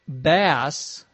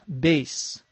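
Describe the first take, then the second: First: The vowel is a short A sound. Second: The vowel is a long A sound. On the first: It means a kind of fish. "If you pronounce it bass, same spelling, that means something completely different. That would be a fish" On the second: It means the low musical instrument. "This word is pronounced like a long A"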